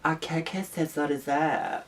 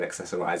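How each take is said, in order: First: The word is pronounced in a fancy, foreign-sounding way. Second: The word is pronounced in the ordinary way. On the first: The speaker calls it right. "It just sounds so exotic" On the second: The speaker calls it wrong. "it doesn't sound right"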